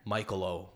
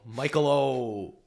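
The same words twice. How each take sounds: First: Said in the usual way. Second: Slow "Michael O", O stretched out; drawn-out "Michael O" as a silly Italian name; slow mock Italian name. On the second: Shown as a demonstration.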